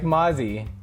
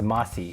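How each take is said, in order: First: The middle consonant is a buzzing Z sound. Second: The middle consonant is a hissing S sound.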